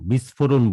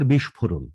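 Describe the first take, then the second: First: The middle sibilant sounds like s. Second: The middle sibilant sounds like sh. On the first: The speaker calls it wrong. "দেখেন বিস্ফোরণ বলি না" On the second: The speaker calls it right. "কিন্তু আবার বিস্ফোরণ"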